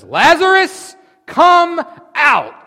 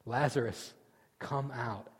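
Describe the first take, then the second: First: Huge, high shouted command; shouting a dead man out of the tomb. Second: Soft command. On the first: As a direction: bellow it into the grave. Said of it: "Then Jesus shouted". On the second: Quiet retelling of the command. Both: Acted.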